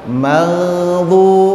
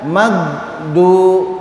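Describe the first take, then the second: First: The middle consonant is a continuous throaty gh. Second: The middle consonant is a stopped hard g. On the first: The speaker calls it right. "maghdu bukan magdu" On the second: The speaker calls it wrong. "magdu salah"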